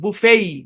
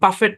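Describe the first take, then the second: First: It ends in a long vowel, no t. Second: It ends with a pronounced t sound. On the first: The speaker calls it right. "টি silent" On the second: The speaker calls it wrong. "এই শব্দের উচ্চারণ বাফেট না"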